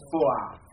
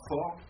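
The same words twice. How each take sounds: First: The vowel opens slightly toward an 'a'. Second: The vowel is a plain, closed 'o'. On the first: The speaker calls it right. "On ne dit pas le A, bien sûr, hein, mais on va vers" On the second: The speaker calls it wrong. "c'est pas for"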